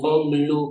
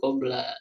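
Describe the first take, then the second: First: The word ends with a u vowel. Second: The word ends with an a vowel. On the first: The speaker calls it right. "berarti dibacanya koblu" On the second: The speaker calls it wrong. "jangan kobla"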